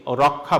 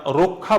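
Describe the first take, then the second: First: রক্ষা said as rɔkkha, open অ; রক্ষা with a plain open অ, the wrong way; wrong reading. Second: রক্ষা said as rokkha, rounded o; রক্ষা with the first vowel like o; correct reading. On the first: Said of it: "রক্ষা বলছি না". (রক্ষা ভুল উচ্চারণ, খোলা অ দিয়ে) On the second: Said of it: "আমরা রক্ষা বলছি". (রক্ষা উচ্চারণ রোক্ খা) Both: Shown as a demonstration.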